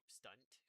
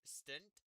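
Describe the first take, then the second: First: "stunt" with a short u, as in "cup". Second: "stunt" with a short i, like "stint". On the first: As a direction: say "stunt" as STUHNT, vowel of "fun". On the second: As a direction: say "stunt" as STINT, with the vowel of "sit". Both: Shown as a demonstration. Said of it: "depending on how you wanna put it".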